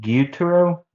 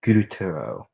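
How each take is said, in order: First: "Gyutaro" as gyoo-tah-ro, rising high; questioning pronunciation. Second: "Gyutaro" as goo-tah-ro, falling low at the end; tentative pronunciation. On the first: Narrator unsure of a name, asking "Gyutaro" as gyoo-tah-ro, pitched up. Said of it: "Is that how you say it?". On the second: Narrator trying out a name, "Gyutaro" said goo-tah-ro with a falling tune. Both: Real, not acted.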